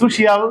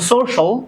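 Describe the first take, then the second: First: The ending is said as three sounds, shee-al. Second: The ending is said as one syllable, shal. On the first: The speaker calls it wrong. "There is no শিয়াল" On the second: The speaker calls it right. "এই শিয়ালটাকে আমরা কেটে দিব শল"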